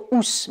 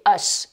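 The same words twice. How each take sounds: First: "ous" with a French "oo" vowel; wrong ending. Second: "us" with a short schwa; correct schwa ending. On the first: Teacher warns learners off it, "ous" said as "oos". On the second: Teacher corrects learners' ending, "us" with a schwa. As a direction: say the ending "us" as a neutral "uhs". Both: Shown as a demonstration. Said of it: "attention de ne pas dire ous".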